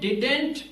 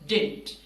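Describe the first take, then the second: First: Both d sounds are clearly pronounced. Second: The second d sound is dropped. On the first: The speaker calls it wrong. "इसको आपने डिडेंट pronounce नहीं करना" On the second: The speaker calls it right. "Second डी silent होगा, this is डिंट"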